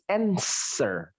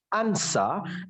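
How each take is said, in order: First: It is said with an American English accent. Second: It is said with a British English accent. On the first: "Kalau American English" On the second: "Bacanya kalau British English"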